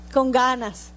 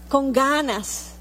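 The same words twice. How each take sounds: First: Said in the usual way. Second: Con ganas slowed, stretching "ganas"; emphatic ganas. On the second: Shown as a demonstration. Preacher repeating "con ganas", slow and weighty. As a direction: lean slowly into "ganas".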